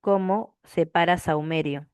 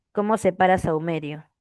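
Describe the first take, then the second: First: Slow, spaced-out "¿Cómo separa saumerio?"; slow repeated question. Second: Said in the usual way. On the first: Real, not acted. Teacher waiting for students to answer, slow and deliberate. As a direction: draw out "Cómo", pause, then the rest.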